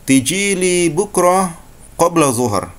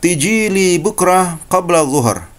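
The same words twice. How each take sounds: No difference in how they are said.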